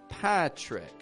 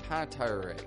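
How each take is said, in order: First: The R follows the T directly, without a vowel. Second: A vowel sound comes before the R. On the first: The speaker calls it right. "This R is coming after a consonant" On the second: The speaker calls it wrong. "that's an unstressed R. Doesn't fit in my name"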